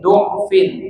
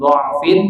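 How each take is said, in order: First: The first vowel is a rounded 'u' sound. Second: The first vowel is an open 'a' sound.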